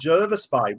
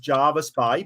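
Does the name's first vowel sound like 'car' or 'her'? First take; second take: her; car. First: The first vowel sounds like the vowel in 'her'. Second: The first vowel sounds like the vowel in 'car'. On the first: This is how the locals say it. The speaker calls it right. "apparently the locals call it Jervis Bay" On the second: This is how outsiders and the navy ship said it. The speaker calls it wrong. "I've always known it as Jarvis Bay"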